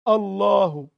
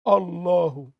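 No difference in how they are said.

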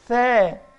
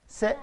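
First: It begins with a 'th' sound, tongue out. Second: It begins with an 's' sound. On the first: The speaker calls it right. "نقول لك ثاء ثاء" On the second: The speaker calls it wrong. "ما اقولش ساء ساء"

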